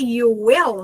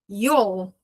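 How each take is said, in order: First: It is said as two full words. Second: It is said as one contracted syllable. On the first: "se é you will" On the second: "na hora que eu pronuncio isso aqui contraído"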